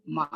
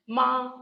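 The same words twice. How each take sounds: First: MA set low in pitch. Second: MA held high and even; high level tone. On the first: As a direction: drop MA to a low level note. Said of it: "low tone". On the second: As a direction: keep MA up on one pitch. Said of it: "this is the high level tone". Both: Shown as a demonstration.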